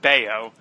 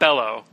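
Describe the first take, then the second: First: The middle consonant is a Y sound. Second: The middle consonant is an L sound. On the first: The speaker calls it right. "but Bayo, which now that I know how to pronounce it" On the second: The speaker calls it wrong. "not Bello"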